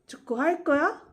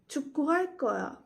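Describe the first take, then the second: First: The pitch rises at the end. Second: The pitch does not rise at the end. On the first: It asks whether you will play soccer. "I'll repeat the question form once again" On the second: It states that I will play soccer. "first I'll say it as a statement"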